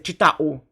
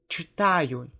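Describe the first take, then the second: First: The word ends with a plain 'u' sound. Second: The word ends with a 'yu' sound. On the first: The speaker calls it wrong. "we don't say" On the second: The speaker calls it right. "We say"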